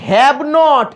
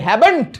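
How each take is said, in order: First: It is said as two full separate words. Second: It is shortened into one contracted word. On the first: "এই হ্যাভ নট" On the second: "এগুলোকে ছোট করে করে বলা যায়"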